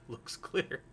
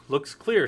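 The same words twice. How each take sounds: First: Whispered, softer movie quote; hushed all-clear. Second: Loud, confident imitation; quoted all-clear. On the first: Retold or imitated. Movie character looks again after the alien, hushed whisper. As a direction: barely voice it, imitating a wary lookout. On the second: Movie character looks in before the guy goes, loud all-clear. First quoted look in film scene.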